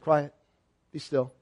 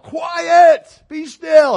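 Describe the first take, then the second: First: It is said calmly and casually. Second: It is yelled dramatically.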